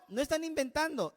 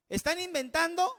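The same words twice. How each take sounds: First: No están inventando, falling and firm, weight on están; falling denial stressing están; firm answer. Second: ¿Están inventando? asked with a rising, doubting tune; rising question on inventando; mock question. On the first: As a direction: settle the doubt flatly. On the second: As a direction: pose it as the listeners' doubt. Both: Shown as a demonstration.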